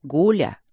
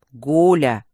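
First: Calm on the surface, danger underneath; deceptively calm. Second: "Гуля!" shouted loud and low, cutting her off; sharp rebuke. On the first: Rector says the gargoyle's name deceptively calm. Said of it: "обманчиво спокойно произнёс". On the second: Rector shouts the gargoyle's name to stop her. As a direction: snap her name to shut her up. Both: Acted.

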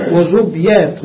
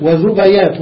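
First: وزبيات with the ba silent, wa-zub-yat; وزبيات said with sukun on the ba; zubyat with sukun. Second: وزبيات with the ba opened by a, wa-zubayat; وزبيات said with fatha on the ba. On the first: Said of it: "بالتسكين". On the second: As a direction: say وزبيات as wa-zu-ba-yat. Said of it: "ودميات بالفتح". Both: Shown as a demonstration.

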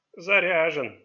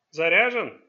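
First: "Заряжен" as a firm falling statement; confirming. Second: "Заряжен" as a loud, short question. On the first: Old man confirms the gun is ready, stating "Заряжен". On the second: Father asks his son about the pistol, questioning "Заряжен". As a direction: ask "Заряжен" sharply, louder on the stressed syllable. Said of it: "спросил Чанг". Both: A narrator's reading.

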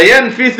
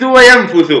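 First: ينفث said "yanfithu", i after the fa; kasra on the fa. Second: وينفث said "wa-yanfuthu", u after the fa; damma on the fa. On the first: Teacher giving another example's first form, ينفث as "yanfithu". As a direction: give ينفث an i vowel: yan-FI-thu. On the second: Teacher giving another example's second form, وينفث as "wa-yanfuthu". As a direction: give وينفث a u vowel: wa-yan-FU-thu. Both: Shown as a demonstration. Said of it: "الضم والكسر".

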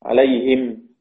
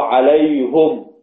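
First: عليهم as "alayhim", with an i after the h; kasra on haa. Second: عليهم as "alayhum", with a u after the h; damma on haa. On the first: Teacher models most readers' stop on عليهم, "alayhim" with kasra. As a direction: stop on عليهم with "hi" and a silent meem. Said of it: "كيف نقف على كلمة عليهم؟". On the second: Teacher models Hamza's stop on عليهم, "alayhum" with damma. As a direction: stop on عليهم with a drawn-out "lay" and "hum". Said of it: "بضم الهاء وقفا". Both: Shown as a demonstration.

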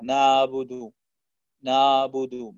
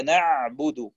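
First: نعبد with ayn melted into a long aa; floating ayn. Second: Slow نعبد with a held, distinct throaty ayn; correct ayn. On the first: Teacher showing a mistake, نعبد with a floating ayn. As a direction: blur the ayn of نعبد toward a heavy alif. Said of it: "ينطقها بصوت عائم بين الألف". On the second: Teacher giving correct recitation, نعبد with a clear ayn. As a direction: let the ayn of نعبد sound fully. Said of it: "وهي نعبد". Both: Shown as a demonstration.

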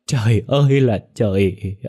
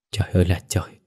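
First: Trời ơi là trời wailed loud and slow; wailing cry. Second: Choked up. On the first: Mother wails to the heavens, Trời ơi là trời loud and slow. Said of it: "mà gào lên". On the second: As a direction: murmur Trời ơi là trời, holding back tears. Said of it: "nghẹn ngào". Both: Acted.

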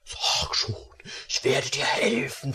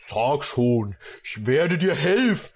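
First: Breathy whispered coaxing; secret, tempting whisper. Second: Said in the usual way. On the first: Acted. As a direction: whisper it close to her ear. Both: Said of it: "flüsterte er".

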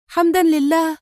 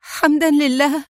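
First: Overjoyed cry. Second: High, tearful cry of thanks; overjoyed cry. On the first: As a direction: let the thanks soar. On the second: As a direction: burst out in great joy. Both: A narrator's reading. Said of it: "وهتفت في فرح شديد".

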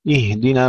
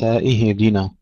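First: اهدنا as "ihdina", airy unbroken h; whispered still ha. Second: اهدنا as "ihidina", extra bounce after h; bounced ha. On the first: Teacher contrasting with the error, breathed vowelless ha in اهدنا. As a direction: let breath flow on the ه of اهدنا, no bounce. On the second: Teacher showing what to avoid, bounced ha in اهدنا. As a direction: break the ه of اهدنا with qalqalah. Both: Shown as a demonstration. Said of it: "الهاء الساكنة فيها الهمس وليس فيها قلقلة".

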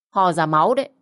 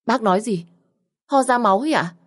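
First: Said in the usual way. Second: Stunned, frightened question; shocked disbelief. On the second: Acted. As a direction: pitch jumps higher in alarm. Daughter shocked by blood news.

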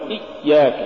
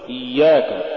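First: إياك with the doubled ي choked short; cut-off ya. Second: Said in the usual way. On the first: Shown as a demonstration. Teacher warning against an error, cut-off ي in إياك. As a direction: stop dead on the ي in إياك. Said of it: "ولا تقل". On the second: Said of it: "قل".

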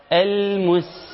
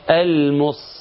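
First: Higher المس with a light hissing s, mus; thin seen. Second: Slow المس with a heavy emphatic s, mos; sad for seen. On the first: Teacher restoring the original letter, thin seen. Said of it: "وخليه سين مرققة". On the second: Teacher showing the distorted word, seen made sad. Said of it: "وحط الصاد". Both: Shown as a demonstration.

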